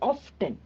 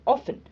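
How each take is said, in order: First: The T sound is pronounced in the middle. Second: The T sound is silent in the middle. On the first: The speaker calls it wrong. "we don't say often" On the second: The speaker calls it right. "we say often, okay. The T is silent"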